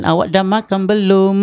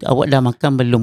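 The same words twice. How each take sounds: First: "Awak dah makan belum?" higher, stress on belum; wrong intonation. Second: Said in the usual way. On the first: Shown as a demonstration. Teacher shows the wrong way. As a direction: push up on belum. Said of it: "bukan itu". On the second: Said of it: "Ha, itu".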